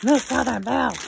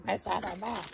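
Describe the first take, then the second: First: Loud, playful catchphrase imitation; loudly mimicked name; imitating Miss Southern Belle. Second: Softer repeat of the mimicked name; quiet catchphrase imitation; imitating Miss Southern Belle. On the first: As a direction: call out the name as its owner would. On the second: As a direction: say the name softly as its owner would. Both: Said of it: "As you would say".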